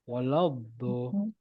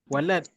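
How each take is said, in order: First: The final consonant bounces with a slight echo. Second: The final consonant is clipped, like a t. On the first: This is the Arabic way, following the point of articulation. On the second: This is the simple Malay way of stopping the word. "bahasa Melayu simple je"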